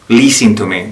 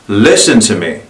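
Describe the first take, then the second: First: The first vowel in 'listen' is tense. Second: The first vowel in 'listen' is relaxed. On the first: The speaker calls it wrong. "that doesn't feel right. That doesn't sound American" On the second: The speaker calls it right. "Let me try relaxing that. ... That feels more American"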